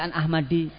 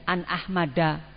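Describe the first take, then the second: First: The name ends with an i vowel. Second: The name ends with an a vowel. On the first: The speaker calls it wrong. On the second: The speaker calls it right.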